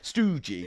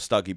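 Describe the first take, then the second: First: The first vowel sounds like 'oo'. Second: The first vowel sounds like 'uh'. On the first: The speaker calls it wrong. "sounds as well like you've got like two two um O's" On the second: The speaker calls it right. "there's a U in there"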